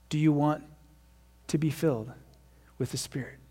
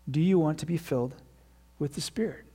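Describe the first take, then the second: First: It is said in a dramatic, preachy way. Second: It is said in a plain, conversational way.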